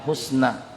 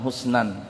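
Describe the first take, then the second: First: The word ends on a plain vowel, no n. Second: The word ends with an added n sound. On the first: The speaker calls it right. "jadi itu waqaf. Jadi dibaca husna" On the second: The speaker calls it wrong. "bukan husnan"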